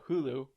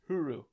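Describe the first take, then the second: First: The middle consonant is an L sound. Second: The middle consonant is an R sound.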